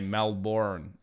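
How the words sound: It is said with an American pronunciation. "how Americans say Melbourne"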